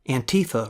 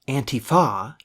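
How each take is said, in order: First: The stress is not on the last syllable. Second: The stress is on the last syllable. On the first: "rolls right off the tongue" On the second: "does not. Stressing that last syllable"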